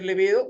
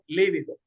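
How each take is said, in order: First: The stress is on the second syllable. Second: The stress is on the first syllable. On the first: The speaker calls it right. "grave, acentuada en la penúltima sílaba" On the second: The speaker calls it wrong. "la gran mayoría pronunciamos líbido"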